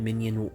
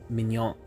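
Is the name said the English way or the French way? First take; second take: English; French. First: It is said like the English word minion. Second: It is said with a French-style ending. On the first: The speaker calls it wrong. "not Minion" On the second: The speaker calls it right. "I think maybe it's Mignon"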